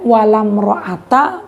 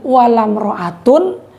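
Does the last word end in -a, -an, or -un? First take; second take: -a; -un. First: The last word ends in a plain -a. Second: The last word ends in -un. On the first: The noun takes the fatha ending without tanwin. "dua fatah" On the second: The noun is in the nominative case. "Satu rofa"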